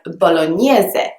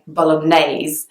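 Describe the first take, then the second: First: The word ends with an audible final vowel. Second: The word ends without a final vowel. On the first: This is the Italian way of saying it. "in Italian, this is probably pronounced very differently" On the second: This is the British English way of saying it. "there is no kind of e sound at the end"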